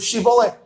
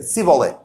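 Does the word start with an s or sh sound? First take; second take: sh; s. First: It starts with an sh sound. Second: It starts with an s sound.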